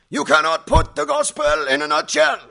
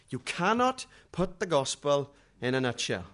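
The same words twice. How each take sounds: First: Booming German voice, far higher and louder; big German voice. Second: Said in the usual way. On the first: Retold or imitated. Evangelist telling the crowd the gospel won't fit, booming German. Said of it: "in his big, German voice". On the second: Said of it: "I've never forgotten that".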